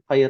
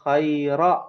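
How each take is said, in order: First: The word ends on the consonant 'r'. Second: The word ends with a short 'a' vowel. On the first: The speaker calls it wrong. "bukan khair aja gitu" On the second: The speaker calls it right. "jazakallahu khaira gitu"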